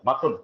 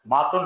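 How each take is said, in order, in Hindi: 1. पहला स्वर छोटा है। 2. पहला स्वर लंबा है। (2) "मातुन नहीं"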